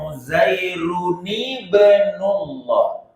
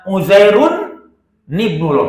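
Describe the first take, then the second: First: The n sound is voweled and linked onward. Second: The n sound starts a separate second word. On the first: The speaker calls it right. "cara bacana" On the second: The speaker calls it wrong. "jangan Uzairun nibnullah, salah"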